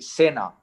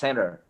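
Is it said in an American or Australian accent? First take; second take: Australian; American. First: It is said in an Australian accent. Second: It is said in an American accent.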